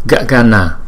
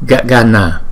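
Both takes have the same delivery.

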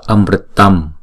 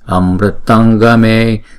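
First: The word ends with a closed m sound. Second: The word ends with an ng sound into the next. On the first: The word stands alone. "Chữ này đứng một mình chúng ta đọc là Amritam ha" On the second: A g sound follows the word. "chúng ta phải chuyển chữ Anuswara này thành chữ ng"

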